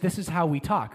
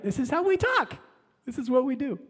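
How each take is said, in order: First: Said in the usual way. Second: Much higher, mocking repeat of This is how we talk; This is how we talk said high and teasing; mocking emphasis. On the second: Shown as a demonstration. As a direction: throw it up high in a mock lilt.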